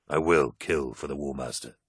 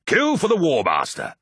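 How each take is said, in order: First: Low, measured vow; solemn promise. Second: Loud, high war shout; rallying battle cry. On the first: A narrator's reading. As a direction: pledge it quietly and earnestly to your brothers. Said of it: "he promised". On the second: Acted. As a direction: cry the oath out to your brothers. Warriors' rallying oath, hands joined.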